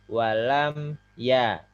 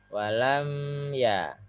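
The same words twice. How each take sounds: First: It moves straight on to 'ya' without holding. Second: The sound is held before moving to 'ya'. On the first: The speaker calls it right. "Langsung pindah ke ya" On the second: The speaker calls it wrong.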